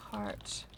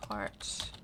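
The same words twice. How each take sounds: The two takes are said the same way.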